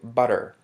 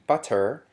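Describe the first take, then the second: First: The middle T is a quick tapped flap. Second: The middle T is a full stop sound. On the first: "changes to butter. And here we use the flap" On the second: "which would normally be butter"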